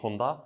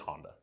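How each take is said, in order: First: The name gets its original, non-American pronunciation. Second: The name gets an Americanized pronunciation. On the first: "That is the, I guess, proper pronunciation" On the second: "But you know, we're in America"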